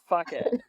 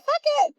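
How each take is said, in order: First: It is said in a normal adult voice. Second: It is said in a toddler's voice.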